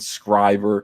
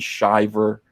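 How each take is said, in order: First: The surname begins with a skri sound. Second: The surname begins with a shi sound. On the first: "or Ethan Scriver" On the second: "not Ethan Shiver"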